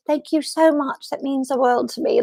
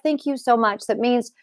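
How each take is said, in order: First: Imitated British accent. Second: Said in the usual way. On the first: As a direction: imitate her British accent, pitched high. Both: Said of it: "in her British".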